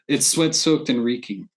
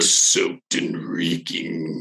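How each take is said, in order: First: It is said in his normal voice. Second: It is said in a gross put-on voice.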